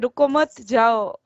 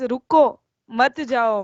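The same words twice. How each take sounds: First: The pause comes after 'मत'. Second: The pause comes after 'रुको'.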